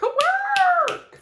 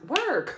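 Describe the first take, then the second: First: Far higher, drawn-out work; excited high cheer; squealed work. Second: Said in the usual way. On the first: Shown as a demonstration.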